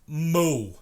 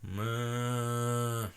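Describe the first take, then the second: First: It is a moo in a New York style. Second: It is a moo in an Oregon style.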